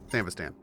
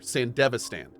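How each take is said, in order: First: No vowel is heard between 'Sand' and 'vistan'. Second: A vowel is heard between 'Sand' and 'vistan'. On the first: The speaker calls it wrong. "I can never pronounce this properly" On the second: The speaker calls it right. "Oh, there's an E in there"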